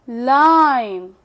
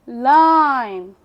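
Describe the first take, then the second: The two takes are said the same way.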